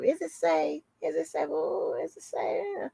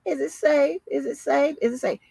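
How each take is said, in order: First: A hint of a fretful damsel, softer, rising on safe; mock damsel in distress, softer and pleading. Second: Passive aggressive mock. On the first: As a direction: lightly mimic a helpless damsel asking is it safe. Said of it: "Like some damsel in distress". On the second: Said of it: "again with that passive aggressive shit".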